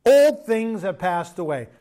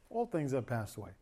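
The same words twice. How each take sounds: First: Put-on slow, louder proclamation of "Old things have passed away"; proclaimed scripture. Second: Put-on "old things have passed away" said lower and softer; softened repeat. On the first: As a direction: declare it slowly like a verse from the pulpit. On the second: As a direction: bring the verse down, quiet and lower. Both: Shown as a demonstration. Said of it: "Can I just say this to you guys?".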